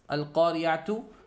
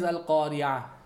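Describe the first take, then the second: First: The word ends with a full 'tu' sound. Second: The word ends with a soft 'h' sound. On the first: The reader continues past the word. "The consonant here is tu" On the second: The reader stops on the word. "It's pronounced as a ha"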